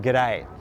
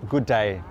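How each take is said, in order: First: The first word shrinks to a single g sound. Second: Both words are said fully and separately. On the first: It is the casual everyday greeting. "the good becomes g and the day stays there" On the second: It is a formal greeting. "if you say it in its uh, full, it's something like a formal greeting"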